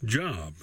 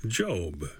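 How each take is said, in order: First: "job" with a short open vowel, like work; short-o pronunciation. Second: "Job" with a long O, as in the Bible; long-o pronunciation. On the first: Teacher showing the class the everyday English word, "job" with short o. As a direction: say "job" to rhyme with "rob". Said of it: "In English, we pronounce it as". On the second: Teacher showing the class the scripture name, "Job" with long O. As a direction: say "Job" to rhyme with "robe". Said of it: "in the scripture it's pronounced". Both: Shown as a demonstration.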